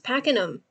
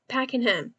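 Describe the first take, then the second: First: The H is dropped, ending like 'um'. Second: The H in the last syllable is pronounced. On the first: This is how locals say it. The speaker calls it right. "it's Pakenham. It is pack in um" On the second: This is how someone else says it. The speaker calls it wrong. "you Packenham"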